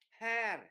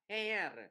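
First: The vowel is pronounced like an open 'a'. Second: The vowel is pronounced like an 'e'. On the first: The speaker calls it right. "mà mình phải đọc là hair" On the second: The speaker calls it wrong. "sẽ không đọc là hair"

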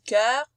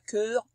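First: The vowel is said as an open sound. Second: The vowel is said as a closed sound. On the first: The speaker calls it right. "C'est un E ouvert" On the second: The speaker calls it wrong. "on dit pas cœur"

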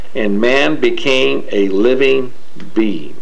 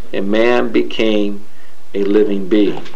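Both takes have the same delivery.

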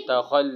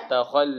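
The two takes are said the same way.

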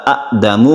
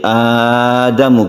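First: The first vowel is said short. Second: The first vowel is drawn out long. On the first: "yang asalnya itu adalah adamu" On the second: "kita panjangkan a-nya"

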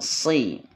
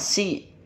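First: The s is the heavy emphatic sad sound. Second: The s is the light plain sin sound. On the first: The speaker calls it right. "dibacanya sod si" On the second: The speaker calls it wrong. "jangan si, jangan sin"

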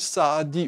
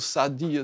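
First: The name is said fully with a drawn-out vowel. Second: The name is said quickly with a short vowel.

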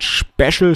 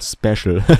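First: The word begins with an 'sh' sound. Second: The word begins with a plain 's' sound. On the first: The speaker calls it wrong. "Also nicht dieses Sch am Anfang" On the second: The speaker calls it right. "sondern Special"

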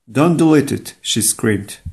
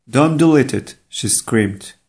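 Both takes have the same delivery.

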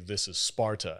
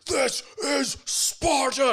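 First: It is said flatly and calmly. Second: It is shouted with great intensity.

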